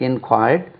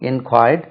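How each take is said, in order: Both takes have the same delivery.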